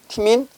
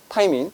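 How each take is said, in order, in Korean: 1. 첫 모음은 'ee' 소리가 납니다. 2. 첫 모음은 'eye' 소리가 납니다. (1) "옛날엔 티민이라고 읽었거든" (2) "바뀐 교육과정에서는 타이민이라고 합니다"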